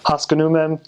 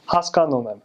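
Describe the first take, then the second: First: Haskanumem with "uh" as second vowel; "Haskanumem" as hos-kuh-NOO-mem; bad American accent. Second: Haskanumem with a full second "ah"; "Haskanumem" as hahs-kahn-oom-em, evenly; good Armenian accent. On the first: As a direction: bounce over the second syllable of "Haskanumem". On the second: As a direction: give "Haskanumem" a clear ah on the second syllable. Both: Shown as a demonstration. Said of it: "Do you kinda hear the difference?".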